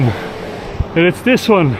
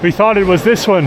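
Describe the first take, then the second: First: "this" drawn out, slow and loud; slow stress on this. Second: "this" pushed up and loud; stress on this. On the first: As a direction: lean slowly on "this". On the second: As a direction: hit "this" hard against the other. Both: Real, not acted.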